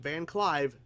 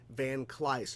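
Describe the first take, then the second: First: The name ends with a v sound. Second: The name ends with an s sound. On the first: The speaker calls it wrong. "I've been saying it wrong" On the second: The speaker calls it right. "Van Cleis, not Van Clive"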